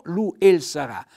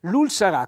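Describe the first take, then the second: First: "lu el sarà" with the e sounded out; the mistaken full "lu el"; "lu el sarà" said with a separate el; wrong form. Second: "lul sarà" with the e dropped; "lul" said as one syllable; correct form. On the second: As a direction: run "lu" and "l" together. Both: Shown as a demonstration. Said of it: "quindi cade la E, l'apostrofo".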